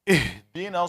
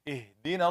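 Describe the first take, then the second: First: The h is pushed out with heavy, exaggerated breath. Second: The h is released with just a little air. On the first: The speaker calls it wrong. "They put too much on it" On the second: The speaker calls it right. "it's just a little bit of air"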